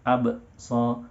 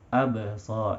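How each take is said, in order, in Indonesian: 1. Bunyi b dihentikan secara mendadak dengan sentakan. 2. Bunyi b dilepas dengan lembut tanpa sentakan. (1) "terlalu dihentikan secara mendadak" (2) "dengan lembut saja"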